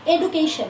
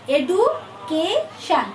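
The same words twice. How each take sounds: First: Said in the usual way. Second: education very slowly in three parts, এডু, কে, শন; syllable groups separated. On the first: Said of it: "try হচ্ছে". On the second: Shown as a demonstration. Teacher demonstrating a trisyllable to students, education in three separated parts. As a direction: break education into three beats with pauses. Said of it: "তিন, তিনবার হলো না".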